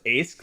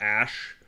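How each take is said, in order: First: The name ends with an 'sk' sound. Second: The name ends with an 'sh' sound. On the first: The speaker calls it wrong. "phonetically pronouncing it like as it's spelled" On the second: The speaker calls it right. "as it's supposed to be"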